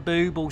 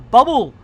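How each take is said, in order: First: The first vowel sounds like 'oo' in 'boot'. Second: The first vowel sounds like 'uh' in 'cup'. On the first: The speaker calls it right. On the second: The speaker calls it wrong.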